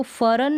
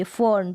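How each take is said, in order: First: फरन with a full R, split into two syllables; wrong full-R pronunciation. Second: फर्न as one syllable with a light R; half-R pronunciation. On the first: Teacher shows learners what not to say, wrongly full-R फरन. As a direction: say फरन with the R fully voiced as "fa-ran". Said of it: "अब इसको फरन नहीं बोलेंगे". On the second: Teacher gives learners the plant's name, half-R फर्न. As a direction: say फर्न with only half an R before the N. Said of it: "अब इसको फरन नहीं बोलेंगे, फर्न". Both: Shown as a demonstration.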